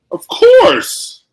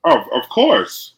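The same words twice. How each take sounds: First: High, loud squeal on "course"; exaggerated agreement. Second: Said in the usual way. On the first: Co-host agreeing on the Chiefs pick, hammed-up high squeal.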